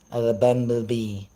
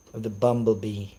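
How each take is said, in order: Both takes have the same delivery.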